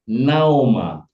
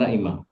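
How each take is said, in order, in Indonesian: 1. Vokal setelah 'Na' adalah 'o'. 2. Vokal setelah 'Na' adalah 'i'. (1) "ini bisa dibaca O" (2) "bukan Naimah"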